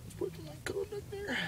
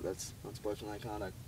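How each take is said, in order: First: High, soft call in an official's voice; a hint of an official ruling; referee call. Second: Said in the usual way. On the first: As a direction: announce the penalty like a referee.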